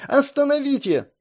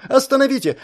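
First: Repeated shout. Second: High, loud desperate cry; shouting. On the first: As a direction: call out again, desperate. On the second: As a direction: yell for them to stop. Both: A narrator's reading. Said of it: "кричала".

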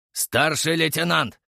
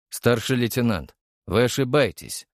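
First: Slow growled warning; growling. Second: Said in the usual way. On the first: A narrator's reading. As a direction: growl his rank, drawn out. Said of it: "рыкнул сержант". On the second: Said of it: "шмыгнул я носом".

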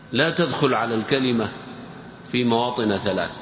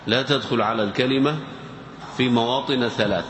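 The two takes are said the same way.

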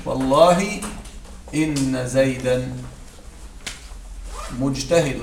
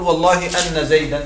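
First: إن said as "inna" with a clear kasra, slowly; correct kasra reading. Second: أن said as "anna" with an open a; wrong fatha reading. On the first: Teacher to students, showing the correct kasra on إن. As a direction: say إن with i, not a, stretching it. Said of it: "لا أقول". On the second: Teacher to students, demonstrating the incorrect fatha on أن. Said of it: "لا أقول: "والله أن زيدا". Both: Shown as a demonstration.

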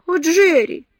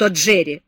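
First: High, loud tearful cry of Джерри; tearful plea. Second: Mocking repeat of о, Джерри, plain pitch; mocking echo. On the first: She pleads, tearful. (жалобный возглас со слезами) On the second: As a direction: throw her о, Джерри back at her. He mocks her plea. (передразнивая, насмешливо) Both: A narrator's reading.

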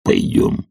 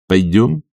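First: Very low husky agreement; hoarse old servant's consent; Zakhar's echo. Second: Casual rising invitation; coachman's questioning tone; inviting coachman. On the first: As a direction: repeat it down in the throat. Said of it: "повторил Захар". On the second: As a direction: ask him along lightly. Coachman Artemy invites Zakhar. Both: A narrator's reading.

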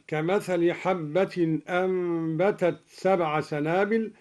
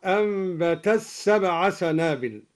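First: Said in the usual way. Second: أنبتت سبع said "ambatas-sab'a"; ta merged into sin. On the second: Shown as a demonstration. Teacher demonstrating al-Duri, أنبتت سبع with t assimilated to s. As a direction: run أنبتت into سبع with a doubled s. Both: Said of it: "أدغم الدوري التاء في السين هكذا".

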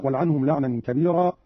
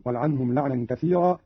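First: Said in the usual way. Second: كثيرا with th, "kathira"; tha reading. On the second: Shown as a demonstration. Teacher shows Qalun's reading, كثيرا with a th. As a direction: say كثيرا with th in place of b. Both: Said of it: "بالثاء على معنى الكثرة".

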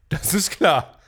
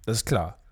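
First: Put-on voice. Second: Said in the usual way. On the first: Shown as a demonstration. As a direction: bark "Das ist klar" in a put-on voice. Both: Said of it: "repeated with contrast".

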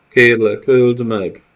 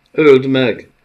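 First: "öld meg!" begged loud through tears; collapsing girl pleading "öld meg!" in tears; sobbing plea. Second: A loud, high yell of "Öld meg!"; desperate shout "Öld meg!" to the hesitating nomad; shouted command. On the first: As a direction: beg "öld meg!" as she breaks down. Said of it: "zokogva összeomlott". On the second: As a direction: scream "Öld meg!" with full force. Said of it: "kiáltotta Felice". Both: A narrator's reading.

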